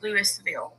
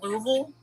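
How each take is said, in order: First: The name is said another way outsiders say it. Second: The name is said the way locals say it. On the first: The speaker is not from the area. "everyone else is like it's Louisville or Louisville" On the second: The speaker is from the area. "if you're from here, you call it Louisville"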